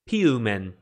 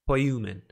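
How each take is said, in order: First: The first syllable sounds like 'pee'. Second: The first syllable sounds like 'poy'.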